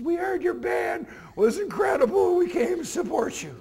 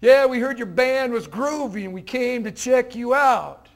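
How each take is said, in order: First: Nervous teacher. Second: Slow, easygoing hip greeting; relaxed, trying to be cool. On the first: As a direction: push it out, heart pounding, voice pitched way up. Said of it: "his heart starts pounding up into his neck". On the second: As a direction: lean back and play it cool, drawn-out. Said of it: "now Mister Croft felt more acceptance". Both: Retold or imitated.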